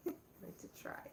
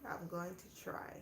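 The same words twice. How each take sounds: First: Breathless giggly whisper, a bit quicker; laughing whisper. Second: Said in the usual way. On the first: Real, not acted. Promising viewers giveaways, laughing it off in a whisper. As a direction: laugh it out under your breath.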